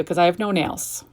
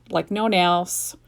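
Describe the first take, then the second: First: Said in the usual way. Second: Slow, with the word no leaned on; stress on no. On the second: Real, not acted. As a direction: drag out no nails to drive it home. Repeats no nails for emphasis.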